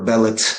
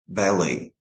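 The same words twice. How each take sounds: First: A t sound is pronounced at the end. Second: No t sound is pronounced at the end. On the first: The speaker calls it wrong. "they don't say buffet or ballet" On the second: The speaker calls it right. "letter T is not pronounced"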